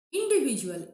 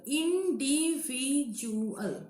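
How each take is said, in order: First: Said in the usual way. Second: Individual very slowly, in-di-vi-du-al; syllable by syllable. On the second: Shown as a demonstration. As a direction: give "Individual" five drawn-out beats. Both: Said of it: "Five syllable".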